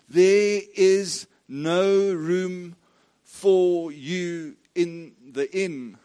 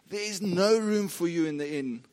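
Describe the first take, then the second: First: The sentence is spoken at an unhurried pace. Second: The sentence is spoken as fast as possible.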